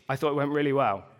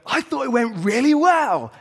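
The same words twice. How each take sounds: First: It is said in a flat, unenthusiastic tone. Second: It is said in an excited, cheerful tone.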